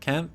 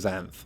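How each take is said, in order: First: The name begins with a hard K sound. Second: The name begins without a hard K sound. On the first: The speaker calls it wrong. "Could be with a hard kind of a K sound" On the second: The speaker calls it right. "I'm going to go with Xanth"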